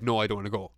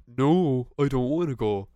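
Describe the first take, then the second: First: Said in the usual way. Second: Sarcastic. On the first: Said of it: "But I just said". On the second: Shown as a demonstration. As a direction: refuse so it's obviously a joke. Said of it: "I'm just being sarcastic".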